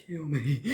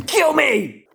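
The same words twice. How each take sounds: First: Said in the usual way. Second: High loud despairing yell; shouting. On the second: Real, not acted.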